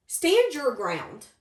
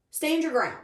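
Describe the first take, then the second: First: Each word planted slowly and firmly, "Stand" hit hardest; slow firm emphasis. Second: Said in the usual way. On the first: Shown as a demonstration. Reader urging the querent to hold firm, slow and emphatic. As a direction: say "Stand your ground" slowly with weight on "Stand".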